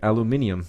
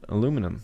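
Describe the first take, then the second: First: It is said with five syllables, British style. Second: It is said with four syllables, American style.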